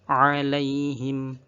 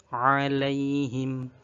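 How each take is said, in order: No difference in how they are said.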